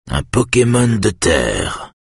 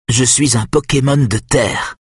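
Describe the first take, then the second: First: Slow, puzzled repeat of "Un Pokémon de terre". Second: Put-on higher proud child saying "Pokémon de terre"; a boy announcing his secret power; satisfied boy. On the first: Kenneth echoes the boy's claim, slow and puzzled. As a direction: weigh each word, bemused. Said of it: "répète Kenneth". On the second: Nick proudly tells Kenneth he is an earth Pokémon, pleased. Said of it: "d'un ton satisfait". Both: A narrator's reading.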